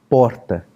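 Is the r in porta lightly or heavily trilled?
lightly. The r has a normal trill. This is how most people in São Paulo speak. "é o R que fala porta"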